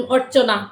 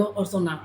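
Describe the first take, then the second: First: অর্চনা said in standard Bengali, clear ch sound; অর্চনা with a crisp standard Bengali ch; অর্চনা pronounced the standard Kolkata way; standard Bengali name. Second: অর্চনা with the ch softened to s, like orsona; অর্চনা in Sylheti dialect sound; Sylheti pronunciation. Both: Shown as a demonstration. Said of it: "আমরা সিলেটি ভাষায় এটারে কিতা ডাকাবো?".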